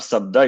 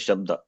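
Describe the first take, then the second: First: The word begins with a plain s sound. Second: The word begins with an sh sound. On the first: The speaker calls it wrong. "not Sabda" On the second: The speaker calls it right. "it is Shabda"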